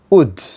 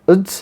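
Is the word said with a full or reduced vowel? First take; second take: full; reduced. First: The word is said fully with a clear w. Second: The word is said reduced, without the w. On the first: "In the strong form, the pronunciation will be wood" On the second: "in the weak form, this word will be pronounced like ud"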